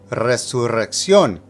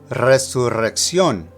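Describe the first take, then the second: No difference in how they are said.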